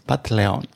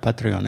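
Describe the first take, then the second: First: The R is replaced with an L sound. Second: The word is said with an R sound. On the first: This imitates a mocked group's pronunciation. "es Patleon" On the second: This is the standard pronunciation. "no pueden decir la Patreon"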